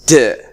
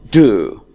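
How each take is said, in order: First: The word is said in a reduced form. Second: The word is said in a full form. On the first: "In the weak form, it is d" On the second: "In the strong form, it is do"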